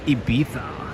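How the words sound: It has an affected European-style pronunciation. This is the pronunciation picked up in Europe. "new pronunciations that they picked up over in Europe"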